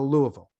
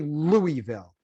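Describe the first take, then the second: First: The name is said reduced, syllables run together. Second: The name is said in full, every syllable clear. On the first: It sounds like a local. The speaker calls it right. "What I need you to do is just go Louisville" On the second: It marks the speaker as an outsider. The speaker calls it wrong. "don't say Louisville. That's embarrassing for everybody"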